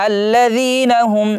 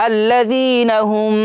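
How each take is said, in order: Both takes have the same delivery.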